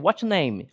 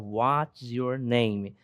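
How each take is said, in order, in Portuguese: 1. As palavras são reduzidas e ligadas rapidamente. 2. Cada palavra é pronunciada completa e separadamente. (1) "ou então a pronúncia é, mais comum" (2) "dificilmente você vai ver um falante nativo falar"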